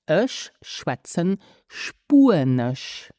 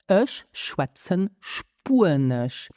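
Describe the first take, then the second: The two takes are said the same way.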